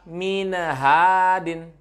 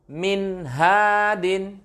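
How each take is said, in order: First: The n is nasalized and drawn out. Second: The n is clear and short. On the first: The speaker calls it wrong. "Jangan dibaca minha minhadin" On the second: The speaker calls it right. "Jadi minhadin minhadin. Jadi jelas"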